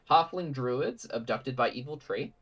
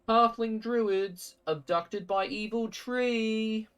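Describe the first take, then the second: First: It is said in the speaker's ordinary voice. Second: It is said in a put-on character voice.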